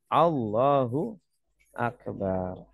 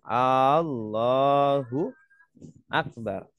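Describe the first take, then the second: First: The first vowel is kept short. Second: The first vowel is drawn out long. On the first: It states that God is great. The speaker calls it right. "Bacanya pendek" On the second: It asks whether God is great. The speaker calls it wrong. "Kalau A-nya panjang"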